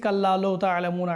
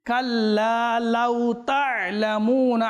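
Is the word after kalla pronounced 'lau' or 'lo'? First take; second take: lo; lau. First: The second word is said with a rounded 'lo' vowel. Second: The second word is said with an open 'lau' glide. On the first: The speaker calls it wrong. "আমরা পড়তে রয়েছি কাল্লা লৌ তা'লামুন ... তাহলে লৌ না" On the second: The speaker calls it right. "এটা হচ্ছে লাউ।"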